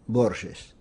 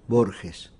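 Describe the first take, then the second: First: The name is said the old Portuguese way. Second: The name is said the Argentine Spanish way. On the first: This is the original pronunciation of the name. "une prononciation portugaise d'il y a deux siècles" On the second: This is how people at home say it. "En général, chez moi, on prononce Borges"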